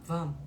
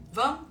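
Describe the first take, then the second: First: Low falling agreement; falling reply in the boy's voice; settled answer. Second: Bright rising invitation, higher and louder; rising question to the son; asking rise. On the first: Son answers mother's invitation. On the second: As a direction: coax him with a lifted question. Mother invites son, he answers. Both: Retold or imitated.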